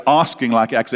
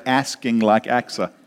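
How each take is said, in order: First: Said in the usual way. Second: American "Asking", flat a as in "cat", rhyming with Achsah; American accent. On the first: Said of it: "I've gotta say". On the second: Shown as a demonstration. Preacher shows congregation the rhyme he wants, American accent. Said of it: "I wish I had an American accent".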